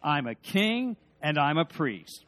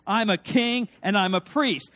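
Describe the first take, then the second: First: Said in the usual way. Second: Much louder, confident call with the crowd; louder rallying declaration. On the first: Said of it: "Together with me?". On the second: Shown as a demonstration. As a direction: lift the whole room, proclaim it. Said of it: "Maybe one more time".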